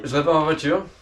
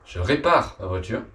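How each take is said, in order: First: The words are slurred together and unclear. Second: Each word is carefully and clearly articulated. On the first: The speaker calls it wrong. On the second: The speaker calls it right.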